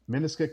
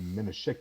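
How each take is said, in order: First: The cluster is said as a plain sk. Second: The cluster is said as an sh sound. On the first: The speaker calls it wrong. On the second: The speaker calls it right.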